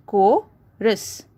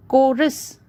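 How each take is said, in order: First: "chorus" as cho, rus with a pause; split into syllables. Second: Said in the usual way. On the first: Shown as a demonstration. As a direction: break "chorus" after the o. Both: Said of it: "there is a pause after O".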